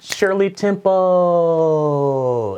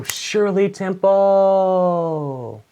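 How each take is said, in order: First: Loud, high, very slow call. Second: Loud, high, very slow announcement. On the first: Waiter presenting the drink to [name], loud and drawn out. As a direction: belt it out slow like a proud waiter. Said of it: "I'm pretty sure I went". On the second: Waiter proudly presenting the drink, loud and drawn out. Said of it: "And I go". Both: Retold or imitated.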